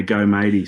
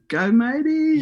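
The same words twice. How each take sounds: First: Imitating mum's cheer, a bit louder. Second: Much higher, louder imitated yell from the crowd; mum's yell. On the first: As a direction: call it out like mum used to. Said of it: "And she used to say". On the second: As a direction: shriek it like mum at the start line. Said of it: "And then I hear".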